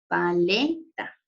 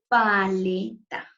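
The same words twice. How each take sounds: First: The stress is on the second syllable. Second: The stress is on the first syllable. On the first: "Hagamos mayor fuerza de voz en la sílaba le" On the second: "Hagamos mayor fuerza de voz en la sílaba pa"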